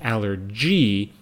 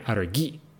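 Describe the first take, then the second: First: It is pronounced the English way, with English g. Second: It is pronounced the German way, with German g. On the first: "In English" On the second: "but in German"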